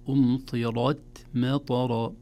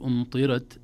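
First: أمطرت مطر with full, emphatic R, drawn out; heavy R. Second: أمطرت with a thinned, light R; thin R mistake. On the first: Teacher correcting the error, R made heavy. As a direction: thicken the R in أمطرت مطر, slowly. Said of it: "تفخيم الراء". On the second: Teacher showing learners the error, R thinned. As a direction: say أمطرت wrongly, R kept thin. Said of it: "لا نقول أمطرت". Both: Shown as a demonstration.

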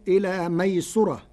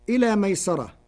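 First: ميسرة said maysura; Warsh reading with damma. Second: ميسرة said maysara; recited with fatha. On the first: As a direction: round the seen in ميسرة. (ميسرة بضم السين) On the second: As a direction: open the seen in ميسرة. (ميسرة بفتح السين) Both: Shown as a demonstration. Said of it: "بضم السين".

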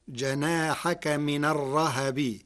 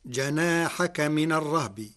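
First: الرهب with fatha on ha, rahab; الرهب as ar-rahabi; Warsh reading. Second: الرهب with sukun on ha, rahb; الرهب as ar-rahbi; standard reading. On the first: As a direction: open the ha in الرهب. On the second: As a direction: read الرهب with a still ha. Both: Shown as a demonstration. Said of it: "بفتح الهاء".

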